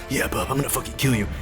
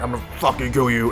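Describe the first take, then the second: First: It is said in an imitation of Wolverine. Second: It is said in an imitation of Hulk.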